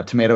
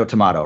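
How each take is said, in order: First: First "tomato" as "tuh-MAY-toh"; American pronunciation. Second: Second "tomato" as "tuh-MAH-toh"; alternative pronunciation. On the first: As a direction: say "tomato" with a long ay in the middle. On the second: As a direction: say "tomato" with an ah in the middle. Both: Shown as a demonstration. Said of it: "however you want it".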